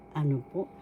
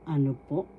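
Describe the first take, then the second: No difference in how they are said.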